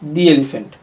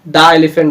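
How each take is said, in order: First: The article is pronounced 'thee'. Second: The article is pronounced 'thuh'. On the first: The speaker calls it right. "इसका sound होगा दी elephant" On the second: The speaker calls it wrong. "दा elephant नहीं"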